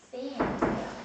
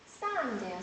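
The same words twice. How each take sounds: First: 샌드예요 with a clear e vowel; sand with e. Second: 사운드예요 with a wide-open a vowel; open a sound. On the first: Teacher demonstrating 샌드예요 to students, e vowel. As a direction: say 샌드예요 with the mouth half open, e sound. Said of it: "에라고 발음을 하면 돼". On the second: Teacher showing students the open vowel in 사운드예요. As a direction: drop the jaw wide for 사운드예요. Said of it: "아 하고 최대한 입을 넓게 벌려". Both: Shown as a demonstration.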